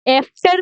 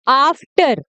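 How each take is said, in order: First: The first vowel is an 'eh' sound. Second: The first vowel is a long 'aa' sound. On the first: The speaker calls it wrong. "एफ्टर नहीं" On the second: The speaker calls it right. "इसका सही बोलने का तरीका है आफ्टर"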